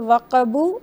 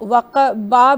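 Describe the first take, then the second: First: The word ends with an added u vowel. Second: The word ends with an added a vowel. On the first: "ना ही वक़बू" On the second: "इसको वक़बा भी नहीं कहेंगे"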